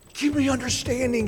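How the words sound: It is said as an emotional, pleading cry. The speaker desperately begs for understanding. "he was crying out for understanding"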